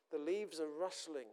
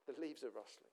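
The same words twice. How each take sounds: First: Said in the usual way. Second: "The leaves are rustling" echoed softly and lower; a soft second echo of "The leaves are rustling"; softer echo. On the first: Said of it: "repeated phrase". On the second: Shown as a demonstration. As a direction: let "The leaves are rustling" fall away, hushed. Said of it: "repeated softer".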